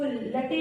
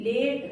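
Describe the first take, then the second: First: लटे in two syllables, final e sounded; wrong reading. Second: Said in the usual way. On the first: Shown as a demonstration. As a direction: misread late as लटे, "luh-tay". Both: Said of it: "इसको लटे नहीं बोलेंगे".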